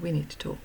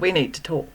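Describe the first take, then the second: First: It is said in a light, friendly tone. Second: It is said in a stern, angry tone. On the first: The speaker has some news to share. "she got something she needs to talk about" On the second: The listener is in trouble. "oh, shit, I'm in trouble, what have I done now?"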